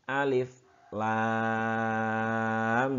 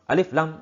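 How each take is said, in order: First: A short break separates the two letter names. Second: The two letter names run together without a break. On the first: The speaker calls it right. "ada jeda berhenti sedikit tanpa nafas" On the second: The speaker calls it wrong. "jangan alif, lam"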